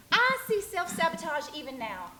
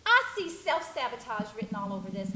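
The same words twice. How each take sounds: First: Pitched higher and pressed on I; pointed, rising accusation; insistent repeat. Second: Said in the usual way. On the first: Acted. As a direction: hit I harder the second time. Repeated accusation, pushed harder.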